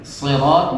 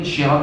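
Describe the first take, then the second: First: The word begins with an s sound. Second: The word begins with an sh sound. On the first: It means the path. The speaker calls it right. "yang betul adalah" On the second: It means police. The speaker calls it wrong. "kalau siratnya berubah jadi shin"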